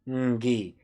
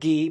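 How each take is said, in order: First: The syllable starts with a nasal ng sound. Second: The syllable starts with a plain g sound. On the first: The speaker calls it right. "but it's ng" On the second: The speaker calls it wrong. "It's not gi"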